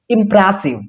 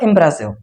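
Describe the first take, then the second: First: The word is said slowly and drawn out. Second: The word is said quickly without focus. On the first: The speaker calls it right. "I a little bit focus on the word impressive" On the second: The speaker calls it wrong. "not a impressive"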